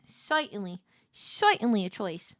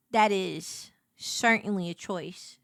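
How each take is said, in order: First: "Certainly" with an oy sound, like "soytenly"; comic vowel twist. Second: Said in the usual way. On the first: Acted. Repeats it with altered vowel.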